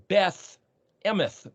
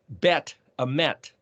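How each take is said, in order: First: Each word ends with a th sound. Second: Each word ends with a t sound. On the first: "sometimes it's a T H" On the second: "the T"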